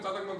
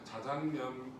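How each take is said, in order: First: The first consonant is tense and strong. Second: The first consonant is plain and soft. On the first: "발음이 너무 세다" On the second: "발음 좀 순하게 합시다"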